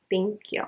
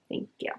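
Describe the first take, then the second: First: Said in the usual way. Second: Unvoiced whispered thanks. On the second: Real, not acted. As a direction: breathe the thanks under your breath. Repeat of thank you, whispered.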